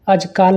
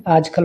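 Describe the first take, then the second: First: आजकाल with a long aa in kaal; wrong vowel length. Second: आजकल with a short a in kal; correct short vowel. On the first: Teacher shows students the mistake, long last vowel. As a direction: stretch the last syllable of आजकाल. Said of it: "नहीं". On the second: Teacher corrects students, short last vowel. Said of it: "होता है". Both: Shown as a demonstration.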